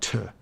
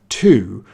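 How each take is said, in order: First: The word is short with a weak vowel. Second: The word has a full, long vowel. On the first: "you can also shorten it" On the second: "you can go to"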